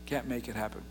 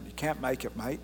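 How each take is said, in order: First: Said in the usual way. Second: Lightly voiced Australian accent, "mate" in Australian; a casual Australian accent on "you can't make it, mate". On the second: Shown as a demonstration. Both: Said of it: "In the Australian".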